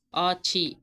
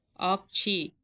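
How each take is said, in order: First: ஆட்சி said "aatchi", with no k sound; correct Tamil form. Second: ஆட்சி said "aakchi", k before the ch; Sanskrit-style form. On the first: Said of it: "correct". (ஆட்சி என்பதை ட் ஒலியுடன்) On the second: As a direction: sound a hard k inside ஆட்சி. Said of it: "இது வந்து வடமொழி சொல்". (ஆட்சி என்பதை "ஆக்சி" என க் ஒலியுடன்) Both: Shown as a demonstration.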